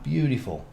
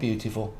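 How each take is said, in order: First: The middle T sound is dropped. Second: The middle T sound is clearly pronounced. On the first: The speaker calls it right. "No T in that" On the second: The speaker calls it wrong. "Not beautiful"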